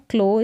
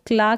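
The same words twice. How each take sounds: First: क्लो with a rounded aw sound; aw vowel. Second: क्ला ending in open aa; wrong aa vowel. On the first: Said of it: "ओ करके है". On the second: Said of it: "क्ला करके ना पढ़े". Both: Shown as a demonstration.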